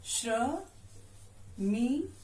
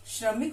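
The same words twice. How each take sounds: First: श्रमिक stretched very slowly; drawn out slowly. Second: Said in the usual way. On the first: Shown as a demonstration. Teacher sounding out श्रमिक for pupils. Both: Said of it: "श्र से बने हुए दो शब्द".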